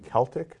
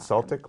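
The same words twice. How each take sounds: First: The word begins with a K sound. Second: The word begins with an S sound. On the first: The speaker calls it right. "thank you for saying Celtic" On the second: The speaker calls it wrong. "not Celtic, like the basketball team"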